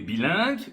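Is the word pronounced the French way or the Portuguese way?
French. The word has a French pronunciation.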